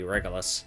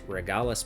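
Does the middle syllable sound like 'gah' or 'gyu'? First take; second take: gyu; gah. First: The middle syllable sounds like 'gyu'. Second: The middle syllable sounds like 'gah'. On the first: The speaker calls it right. "I think it's supposed to be Regulus" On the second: The speaker calls it wrong. "I was pronouncing that as Regalis piece"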